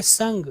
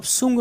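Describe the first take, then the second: First: संग with an "uh" vowel; correct pronunciation. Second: सुंग with an "oo" vowel; mistaken pronunciation. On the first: Teacher gives the right form, संग as "sung". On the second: Teacher warns students off it, सुंग as "soong". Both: Shown as a demonstration. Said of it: "इसको आप सुंग नहीं पढ़ेंगे".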